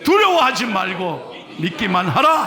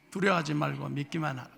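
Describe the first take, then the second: First: Firm, emphatic proclamation; read with full force. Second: Soft, lifeless mumble; limp reading. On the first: Pastor reading the verse aloud with full force. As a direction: declare it with all your strength. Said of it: "저는 성경을 온 힘을 다해서 읽는데". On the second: Pastor imitating the congregation's limp, listless reading. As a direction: read it with no energy at all. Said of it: "뭔 성경을 그렇게 매가리 없게 읽어요?". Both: Shown as a demonstration.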